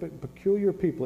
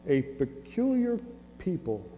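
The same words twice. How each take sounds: First: Said in the usual way. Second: Peculiar drawn out slowly; stress on peculiar. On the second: Shown as a demonstration. Preacher to congregation, slow stress on "peculiar". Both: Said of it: "yep, a peculiar people".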